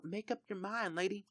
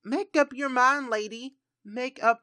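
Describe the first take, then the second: First: Much softer, under-the-breath grumble; muttered aside. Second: Louder, higher exasperated scold; exasperated call. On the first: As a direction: mutter it to yourself, resigned. Repeating scold to indecisive Sim. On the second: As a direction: throw up your hands and call it out loud. Scolding indecisive Sim. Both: Acted.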